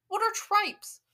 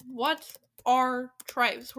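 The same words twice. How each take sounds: First: High, loud, incredulous question; real puzzled exclamation; baffled outburst. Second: Loud, very slow, word by word; heavily drawn-out, emphatic question; slow bafflement. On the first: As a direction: demand to know, bewildered. Baffled by an unknown word. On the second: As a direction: spell out the question in disbelief. Repeats the baffling question slowly. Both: Real, not acted.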